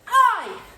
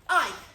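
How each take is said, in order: First: The shout is very loud. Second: The shout is moderately loud.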